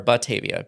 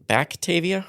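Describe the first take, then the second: First: No k sound comes before the t. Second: A k sound comes before the t. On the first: The speaker calls it right. "B A T" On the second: The speaker calls it wrong. "you keep putting like a C or something in there"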